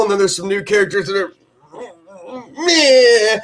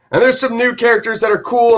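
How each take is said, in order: First: A quick run-up, then a high laughing "meh"; dismissive. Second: Lifts the pitch up high for the good ones; bright and hyped about cool characters; enthusiastic. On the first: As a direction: shrug off the lame ones with a laugh. Dismissing the other characters. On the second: Praising the new characters. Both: Real, not acted.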